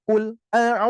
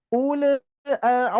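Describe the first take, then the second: First: "ul" with the l cut off and held back; "ul, a" with a blocked l; held lam. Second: "ul" with the l bounced off; "ul, a" with a bouncing l; bouncing lam. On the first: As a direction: stop the air dead on the l of "ul". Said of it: "itu syidah". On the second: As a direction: let the l in "ul" bounce. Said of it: "itu mantul". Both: Shown as a demonstration.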